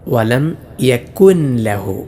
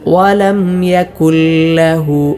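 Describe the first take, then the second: First: The n is pronounced clearly before the l. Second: The n merges fully into a doubled l. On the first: The speaker calls it wrong. "നൂനിനെ വെളിവാക്കി ഓതാറുണ്ട്" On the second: The speaker calls it right. "ഇങ്ങനെയാണ് ഓതേണ്ടത്"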